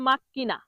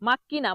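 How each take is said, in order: Both takes have the same delivery.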